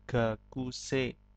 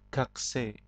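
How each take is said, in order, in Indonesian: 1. Bunyi ku terdengar jelas dan penuh. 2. Bunyi ku terdengar samar dan hampir hilang. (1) "dasarnya adalah gakusei" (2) "kalau dalam percakapan ... kunya agak samar"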